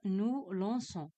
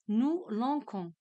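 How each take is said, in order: First: The c is pronounced as a soft s sound. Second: The c is pronounced as a hard k sound. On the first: The speaker calls it right. "je dois ajouter la cédille pour la prononcer correctement" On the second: The speaker calls it wrong. "si je mets O N S, euh, je prononce quand"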